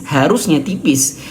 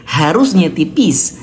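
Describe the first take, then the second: The two takes are said the same way.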